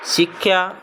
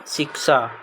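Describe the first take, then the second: First: शिक्षा said the Punjabi way, as sikhya with a kh and ya ending; Punjabi word. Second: शिक्षा said the Hindi way, as siksha with a plain s and a ending, falling; Hindi word. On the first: Teacher reads the Punjabi शिक्षा to children as sikhya. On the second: Teacher gives children the Hindi शिक्षा as siksha, falling. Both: Shown as a demonstration. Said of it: "Punjabi और हिंदी भाषा में शब्द".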